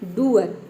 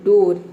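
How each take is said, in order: First: The vowel is an 'oo' sound followed by 'uh'. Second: The vowel is a single 'oh' sound. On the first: The speaker calls it wrong. "अगर हम double ओ को यहाँ पे उ pronounce करते तो इसका pronunciation हो जाता डूअर" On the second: The speaker calls it right. "लेकिन हम इसको डूअर नहीं बोलते हैं, इसको बोलते हैं हम डोर"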